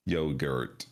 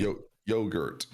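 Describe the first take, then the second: First: Lightly voiced robotic yogurt, low and even; Google robot voice. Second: Yogurt stretched slowly with a hard t; drawn-out yogurt. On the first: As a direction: say yogurt like a computer voice. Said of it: "computerized digital voice of Google". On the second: Retold or imitated. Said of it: "Jack doesn't say it like that".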